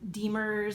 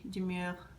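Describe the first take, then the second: First: The name is given an English pronunciation. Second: The name is given a French pronunciation.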